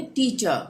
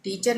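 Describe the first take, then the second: First: "टीचर" said "tee-chuh", no r; silent r. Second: "टीचर" with the final r sounded; r pronounced. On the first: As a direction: let "टीचर" end on a schwa. ("टीचर" को "टीचअ" बोलें) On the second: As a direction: end "टीचर" on a clear r. ("टीचर" के अंत में र बोलें) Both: Shown as a demonstration. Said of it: "टीचर नहीं बोलेंगे".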